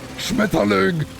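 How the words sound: The word is said harshly and aggressively.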